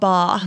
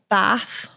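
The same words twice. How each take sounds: First: The word is said with a non-Manchester accent. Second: The word is said with a Manchester accent. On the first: "not Bath" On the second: "Manchester's like we don't say ca- we say like Bath"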